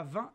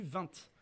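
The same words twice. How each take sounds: First: Standard "vingt" with the T silent. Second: Alsatian "vingt" with a sounded final T; T pronounced in vingt. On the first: Debater showing how young Alsatians count, "vingt" with silent T. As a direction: say "vingt" ending on the nasal vowel. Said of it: "Et en Alsace". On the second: Debater showing the old Alsatian form, "vingt" with T sounded. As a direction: say "vingt" ending in a clear T. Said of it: "et non plus vingt". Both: Shown as a demonstration.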